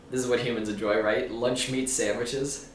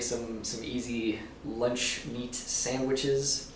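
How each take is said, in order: First: Alien voice. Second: Slow, stilted alien voice. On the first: Shown as a demonstration. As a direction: sound out each word like an alien. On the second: Real, not acted. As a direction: say it like an alien studying humans. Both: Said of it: "It sounds like an alien saying that".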